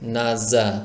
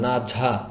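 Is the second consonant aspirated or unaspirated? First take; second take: unaspirated; aspirated. First: The second consonant is unaspirated, with no puff of air. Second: The second consonant is aspirated, with a puff of air. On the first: The speaker calls it right. "কোনো বাতাস বের করা যাবে না ... দেখুন আমি কিভাবে আওয়াজ করছি" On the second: The speaker calls it wrong. "অনেকে এভাবে বলেন ... বাংলা ভাষায় ঝ এর মতো বলে ফেলেন"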